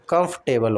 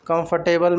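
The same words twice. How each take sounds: First: "कंफर्टेबल" squeezed to kumf-te-bal; shortened middle. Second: "कंफर्टेबल" as kum-far-te-bal, all syllables; R sounded. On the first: Teacher corrects learners, "कंफर्टेबल" as kumf-table. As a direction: drop the "अर" inside "कंफर्टेबल". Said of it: "कंफर्टेबल होता है". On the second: Teacher shows the mistake, "कंफर्टेबल" with full "फर". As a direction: wrongly spell out the "फर" in "कंफर्टेबल". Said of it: "कंफर्टेबल नहीं होता". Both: Shown as a demonstration.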